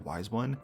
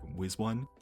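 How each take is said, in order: First: The first word has a long 'eye' vowel. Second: The first word has a short 'i' vowel. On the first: The speaker calls it wrong. "I've been saying that wrong since twenty eighteen. I always said Wise One" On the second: The speaker calls it right. "it's supposed to be a play on with one, so it's more like Wiz One"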